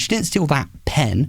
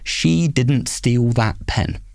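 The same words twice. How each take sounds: First: The stress falls on the word pen. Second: It is said flat with no word stressed. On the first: "she stole something else" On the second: "So flat"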